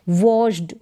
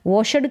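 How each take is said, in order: First: The ending is said as a plain d sound. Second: The ending is said as an extra syllable. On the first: The speaker calls it right. "वॉश्ड ड करके इसका उच्चारण आ रहा है" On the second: The speaker calls it wrong. "वॉशड करके या वॉशड करके नहीं पढ़ेंगे"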